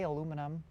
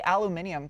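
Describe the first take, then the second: First: Said in the usual way. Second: "aluminium" said the British way, al-yoo-MIN-ee-um; "aluminium" with stress on MIN and an -ee-um ending; joke pronunciation. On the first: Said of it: "I can say aluminum". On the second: Shown as a demonstration. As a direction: say "aluminium" with the extra i, for fun. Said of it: "I say aluminium 'cause it's funny".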